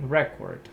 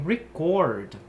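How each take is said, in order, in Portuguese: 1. A tônica está na primeira sílaba. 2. A tônica está na segunda sílaba. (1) "o substantivo você tem record" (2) "já puxado para outra sílaba"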